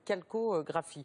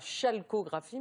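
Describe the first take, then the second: First: The word begins with a k sound. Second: The word begins with an sh sound. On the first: The speaker calls it right. "mais calcographie" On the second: The speaker calls it wrong. "pas chalcographie"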